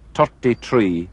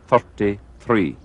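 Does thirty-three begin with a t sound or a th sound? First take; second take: t; th. First: The th sounds are said as plain t. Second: The th sounds are said as true th. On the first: "Some Irish people have a difficulty with pronouncing the T H sound" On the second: "instead of"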